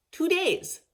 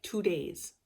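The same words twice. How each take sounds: First: "Two days" jumps much higher, stressed on "days"; emphatic repeat. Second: Said in the usual way. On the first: Real, not acted. Stressing to viewers how fast her father died, "Two days" pitched high.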